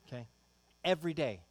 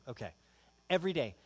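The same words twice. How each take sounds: The two takes are said the same way.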